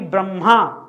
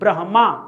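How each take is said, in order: First: The h sound comes after the m. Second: The h sound comes before the m. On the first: The speaker calls it wrong. "ना कि ब्रह्मा" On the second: The speaker calls it right. "आपको अंतिम में म बोलना है"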